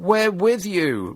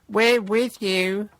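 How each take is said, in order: First: Sycophant. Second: Slow, high, fawning voice; gushing sycophant. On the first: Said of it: "one man shouted in support". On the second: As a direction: simper like a flunky. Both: Retold or imitated.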